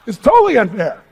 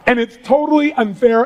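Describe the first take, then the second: First: "totally unfair" said through a laugh. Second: Said in the usual way. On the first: Shown as a demonstration. The speaker repeats that rewards are unfair, laughing.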